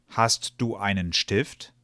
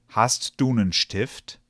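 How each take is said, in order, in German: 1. Jedes Wort wird voll und einzeln ausgesprochen. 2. Die Wörter werden abgeschwächt und zusammengezogen.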